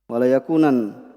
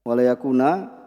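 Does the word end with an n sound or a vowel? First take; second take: n sound; vowel. First: The word ends with an n sound. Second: The word ends on a vowel without n. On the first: The speaker calls it wrong. "Mereka sebagian thalib ketika ditanya, ya mereka membacanya apa?" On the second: The speaker calls it right. "Ini ketika berhenti pada ya walayakuna seperti itu"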